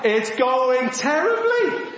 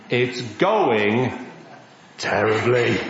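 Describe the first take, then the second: First: Slow, drawn-out "terribly", lifted in pitch; emphatic repeat. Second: Low-pitched "terribly" after a pause; grave deadpan. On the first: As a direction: stretch out "terribly" for comic emphasis. Repeats the bad news emphatically. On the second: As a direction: drop low and leave a gap before "terribly". Reveals the failed fishing trip. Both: Acted.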